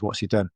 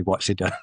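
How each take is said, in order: First: Said in the usual way. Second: Repeated with a laugh in it; amused retelling of the quick reply. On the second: Retold or imitated. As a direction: laugh through the words as you retell it.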